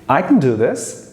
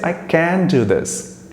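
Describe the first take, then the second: First: The words are run together smoothly. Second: Each word is said separately and fully. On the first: The speaker calls it right. "the exact sound of I can do this is going to be" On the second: The speaker calls it wrong. "Now I didn't say"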